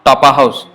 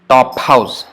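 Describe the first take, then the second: First: An extra vowel is inserted after the p. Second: The p runs directly into the h. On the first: The speaker calls it wrong. "Not topa house" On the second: The speaker calls it right. "The p followed by h immediately"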